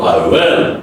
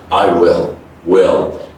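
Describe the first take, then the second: First: "will" low, open e like "well"; wrong will. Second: "will" low, short i into dark L; correct will. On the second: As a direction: glide "will" back to the L. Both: Shown as a demonstration.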